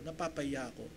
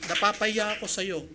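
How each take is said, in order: First: "Napapahiya ako" said much softer and lower, almost to himself; quietly echoing "Napapahiya ako" in shame; soft ashamed repeat. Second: Said in the usual way. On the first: Retold or imitated. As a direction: drop to a hushed confession on "Napapahiya ako". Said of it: "Sabi ko". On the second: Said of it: "Sabi ko, "Napapahiya ako".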